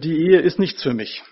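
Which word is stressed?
nichts. The stress falls on the word nichts. Marriage does not suit the speaker. The speaker calls it wrong. "dass die Betonung falsch ist"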